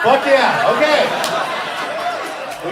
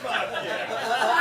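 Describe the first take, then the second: First: A big rally cry of fuck yeah; loud shout. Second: Said in the usual way. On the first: Acted. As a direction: bellow it back to the crowd, louder and higher. Shouting it back to crowd.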